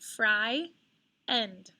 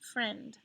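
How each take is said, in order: First: The word is split into two syllables. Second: The word is said as one syllable. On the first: It is a spelling aid. "I kind of give myself a little hint. It's like fry, end" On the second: It is the normal spoken word. "it doesn't sound like that when you say the word friend"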